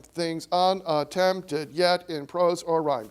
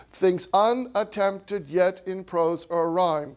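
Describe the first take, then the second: First: Said in the usual way. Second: Slow, every second syllable in "Things unattempted yet in prose or rhyme" punched; sing-song meter. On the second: Shown as a demonstration. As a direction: hammer the iambs. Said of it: "read it in a really silly way".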